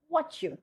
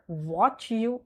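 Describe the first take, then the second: First: WHAT YOU softly merged as wha-choo; light, joined "what you" with ch; assimilated version. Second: WATCH YOU as two distinct words; over-separated "watch you"; wrong separated version. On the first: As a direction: blend "what you" quickly into one. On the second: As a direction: say a full "watch", then "you". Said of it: "so not". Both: Shown as a demonstration.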